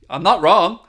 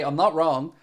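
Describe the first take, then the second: First: NOT punched, louder and higher, rising; defiant, with "not" stressed loud and high; emphatic denial. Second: Said in the usual way. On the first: Real, not acted. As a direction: lean hard on NOT in "I'm not wrong". Defiant after laughing at criticism.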